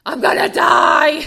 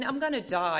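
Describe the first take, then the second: First: Slow, high, full-force cry of despair; desperate shout. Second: Said in the usual way. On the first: Retold or imitated. Telling Val on the phone she's going to die, desperate high shout. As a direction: throw it out like a drowning plea.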